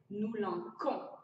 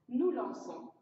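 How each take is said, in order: First: The c is said as a k sound. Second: The c is said as an s sound. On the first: The speaker calls it wrong. "ce qui serait une mauvaise prononciation" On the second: The speaker calls it right. "la bonne prononciation"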